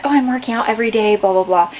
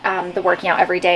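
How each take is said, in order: First: Mock quoting herself. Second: Said in the usual way. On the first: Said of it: "I know that I've been saying, like". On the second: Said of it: "And I have a reason for that".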